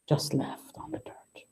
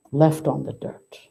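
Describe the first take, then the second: First: Hushed whisper of "just left on the dirt". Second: Said in the usual way. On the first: Acted. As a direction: breathe the words out like a secret grief. Retelling the riwayah.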